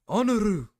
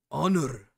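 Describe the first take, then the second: First: Honor in a hammed-up mock Japanese accent, much higher and louder. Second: Honor with a rolled, clipped mock Japanese accent, a first tentative try. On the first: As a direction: honor barked high and loud with a mock Japanese accent, the bolder second try. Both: Shown as a demonstration. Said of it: "I can't do the Japanese accent".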